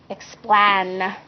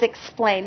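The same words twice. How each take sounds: First: The A and I are sounded out separately. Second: The A and I blend into one long vowel. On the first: The speaker calls it wrong. "read those sounds individually" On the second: The speaker calls it right. "I need to read the vowel pair as A"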